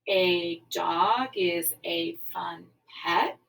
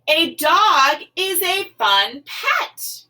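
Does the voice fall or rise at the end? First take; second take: fall; rise. First: The voice falls and stops at the end. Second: The voice rises at the end. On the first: It is just a statement. The speaker calls it right. "Does it just stop? Does it use a period?" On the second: It asks for an answer. The speaker calls it wrong. "Does it require an answer?"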